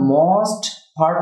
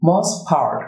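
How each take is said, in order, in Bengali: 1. most-এর শেষের t উচ্চারণ করা হয়। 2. most-এর শেষের t বাদ যায়। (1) "for the most part না বলে" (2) "বলছি most part, কারণ t delete হবে"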